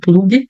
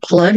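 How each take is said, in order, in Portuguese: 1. A palavra termina com um som de vogal extra. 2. A palavra termina limpa na consoante g. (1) "não plug" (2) "Cuidado que é plug"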